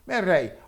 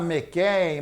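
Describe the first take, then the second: First: The middle consonant is a throaty h-like sound. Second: The middle consonant is a plain k sound. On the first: "o C H, na verdade, em hebraico, tem um som de Rá" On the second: "Algum vai falar Mequém"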